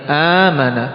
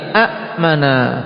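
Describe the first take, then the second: First: The first vowel is long with no stop. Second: A glottal stop follows the first short vowel. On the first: The second hamza has changed into alif. "menjadi alif" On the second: This is the underlying form with two hamzas. "a'mana menjadi amana"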